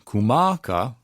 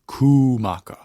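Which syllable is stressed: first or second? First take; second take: second; first. First: The stress falls on the second syllable. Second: The stress falls on the first syllable. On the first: The speaker calls it wrong. "instead of saying kumaka, kumaka as our emphasis" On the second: The speaker calls it right. "that kahako over the u makes it kumaka"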